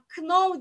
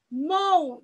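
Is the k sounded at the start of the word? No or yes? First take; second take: yes; no. First: The initial k is pronounced. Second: The initial k is silent. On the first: The speaker calls it wrong. "know diye okunmuyor hiçbir zaman" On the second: The speaker calls it right. "Know diye telaffuz ediyoruz"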